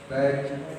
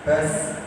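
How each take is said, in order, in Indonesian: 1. Bunyi konsonannya seperti j. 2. Bunyi konsonannya seperti z berdengung. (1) "Kalau nempel kayak jim nanti baju" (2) "ujung lidah ini baz"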